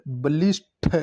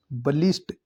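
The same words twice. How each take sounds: First: "बलिष्ठ" with aspirated th released at the end; breathy final th on "बलिष्ठ"; correct pronunciation. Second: "बलिष्ठ" with plain final t; quick "बलिष्ठ", no aspiration; wrong pronunciation. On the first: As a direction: sound out "बलिष्ठ" as ba-lish-tha. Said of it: "ठ आएगा". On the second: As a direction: say "बलिष्ठ" as balisht. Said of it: "बलिष्ठ अशुद्ध है". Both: Shown as a demonstration.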